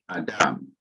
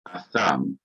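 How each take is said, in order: First: The middle consonant is a d sound. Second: The middle consonant is a th sound. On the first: This is the modern pronunciation. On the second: This is the older pronunciation.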